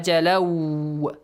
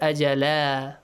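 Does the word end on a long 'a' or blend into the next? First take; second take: blends on; long a. First: The final n merges into the following word. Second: The word ends on a long a vowel. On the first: The reading continues without stopping. "If you continue, yeah, ajalaw, idgham" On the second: The reading stops at this word. "if you stop here, ajala, the tanween will be changed to alif mat"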